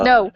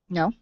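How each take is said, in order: First: The voice falls at the end like a statement. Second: The voice rises at the end like a question. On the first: The speaker refuses with confidence. The speaker calls it right. "I'm practicing" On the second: The speaker is unsure about refusing. The speaker calls it wrong. "you said it with a question in your voice"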